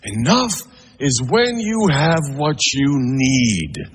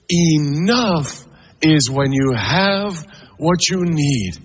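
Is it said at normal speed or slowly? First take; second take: normal speed; slowly. First: It is said at a normal speed. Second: It is said more slowly.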